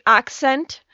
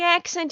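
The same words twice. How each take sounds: First: "accent" with a broader open A, like "ahk-sent"; alternative pronunciation of accent. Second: "accent" with a flatter front A, as in cat; first pronunciation of accent. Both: Shown as a demonstration. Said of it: "that sounds so much better".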